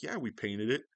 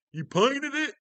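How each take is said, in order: First: Said in the usual way. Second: Very high, loud mock disbelief; hammed-up astonished question; amazed customer. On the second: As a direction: squeal it like a stunned customer.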